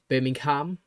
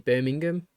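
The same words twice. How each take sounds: First: The h sound is clearly pronounced. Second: The h sound is left silent. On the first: This is how an American might say it. "like pronounce the H" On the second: This is how the speaker says it. "or like I say"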